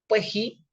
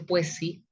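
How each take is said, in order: First: The s sounds are breathed out like an h. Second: The s sounds are clear, hissing s sounds.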